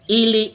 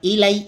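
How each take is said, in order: First: The word ends with an 'ee' sound. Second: The word ends with an 'eye' sound. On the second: "Ang pronounce naman ng iba"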